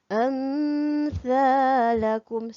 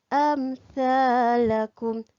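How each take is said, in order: First: The m sound is nasalized and held. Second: The m sound is short and clear. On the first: The speaker calls it wrong. "Salah. Sebab kita dah dengung" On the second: The speaker calls it right. "Jangan dengung. Sebut jelas"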